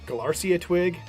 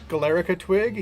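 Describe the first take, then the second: First: The first word ends with 'rcia'. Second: The first word ends with 'rica'. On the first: The speaker calls it wrong. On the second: The speaker calls it right.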